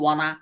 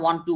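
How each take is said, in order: First: It is said as one blended, reduced word. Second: It is said as two separate full words. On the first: "ওয়ান টু কে ওয়ানা বলে না?" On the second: "ওয়ান টু কে ওয়ানা বলে না?"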